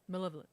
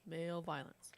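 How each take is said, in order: First: It is said as one smooth word. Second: It is split into two separate words. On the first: It means ill will. The speaker calls it right. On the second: It sounds like violence by men. The speaker calls it wrong.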